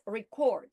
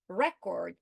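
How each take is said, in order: First: "record" as re-CORD; stress on second syllable. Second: "record" as REC-ord; stress on first syllable. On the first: Teacher imagining a misreading, "record" stressed re-CORD. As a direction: move the weight to CORD in "record". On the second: Teacher naming the word being read, "record" stressed REC-ord. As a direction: put the weight on REC in "record". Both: Shown as a demonstration. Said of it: "reading the word record as".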